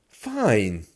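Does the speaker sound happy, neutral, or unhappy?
happy. It sounds cheerful and pleased. The speaker is happy. "meaning I'm happy"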